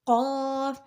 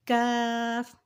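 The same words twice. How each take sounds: First: قاف as back q with rounded "aw", held; thick q. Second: کاف as light k with open "aa", held; thin k. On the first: Teacher contrasting twin letters, قاف thick. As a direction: say قاف full and heavy. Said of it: "پڑھتے ہیں ہمیشہ موٹا". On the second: Teacher contrasting twin letters, کاف thin. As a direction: say کاف thin, lips unrounded. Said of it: "پڑھا جاتا ہے باریک". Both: Shown as a demonstration.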